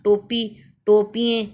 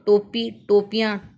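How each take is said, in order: First: टोपिएँ said with an "-एँ" ending instead of "-इयाँ"; wrong plural. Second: Said in the usual way. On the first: Shown as a demonstration. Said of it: "ये शब्द गलत बनता है". (गलत उच्चारण: टोपिएँ, "एँ" से अंत) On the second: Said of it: "इसका सही उच्चारण है टोपियाँ".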